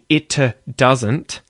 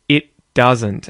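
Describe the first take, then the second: First: The T at the end of 'it' is clearly released before the D. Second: The T at the end of 'it' is held unreleased before the D. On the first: The speaker calls it wrong. "instead of saying it doesn't" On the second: The speaker calls it right. "I go straight into the D instead of releasing the T"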